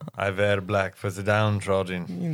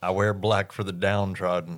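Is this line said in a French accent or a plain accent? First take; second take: French; plain. First: It is said in a put-on French accent. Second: It is said in the speaker's plain accent.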